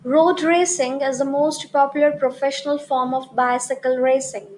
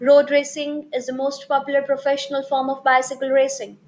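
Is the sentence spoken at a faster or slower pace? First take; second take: slower; faster. First: The sentence is spoken at a slower pace. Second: The sentence is spoken at a faster pace.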